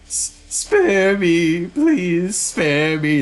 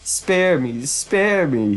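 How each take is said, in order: First: High, drawn-out wailing plea; panicked bishop's high-pitched whine; terrified begging. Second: High, teasing echo of his plea; milder mock whine; mocking imitation of begging. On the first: Acted. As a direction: beg for your life, stretching each word. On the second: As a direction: mimic the coward's plea, pitched up. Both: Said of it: "he says".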